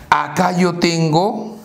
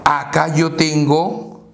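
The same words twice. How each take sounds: The two takes are said the same way.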